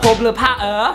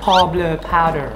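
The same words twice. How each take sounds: First: It is said in an Australian English accent. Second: It is said in an American English accent. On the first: "ออสเตรเลีย" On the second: "อเมริกัน"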